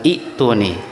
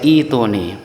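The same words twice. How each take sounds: First: It has a glottal catch before the t. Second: It starts with a long i and no catch. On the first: The speaker calls it wrong. "bukan bukan ituni" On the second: The speaker calls it right. "Jadi dibaca ituni"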